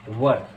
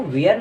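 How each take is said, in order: First: वर as one short syllable, 'wur'; taught pronunciation. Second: वेयर with a gliding 'vay-ar'; wrong pronunciation. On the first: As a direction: say वर with no 'ay' glide. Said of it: "इसको पढ़ना है वर". (वर, एक छोटे स्वर में) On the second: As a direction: say वेयर in two syllables. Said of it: "इसको वेयर नहीं पढ़ना". (वेयर, 'वे-यर' दो हिस्सों में) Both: Shown as a demonstration.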